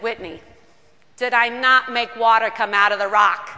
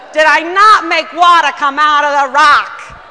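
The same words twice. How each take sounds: First: A hint of a Brooklyn scolding sister; frank Brooklyn God. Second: Shouted rebuke, much louder, stress on not; scolding shout. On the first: God scolds Whitney, hint of Brooklyn, loud. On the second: Retold or imitated. God rebukes Whitney a second time, shouting. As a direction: repeat it, yelling it home. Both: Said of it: "Brooklyn might be the best way".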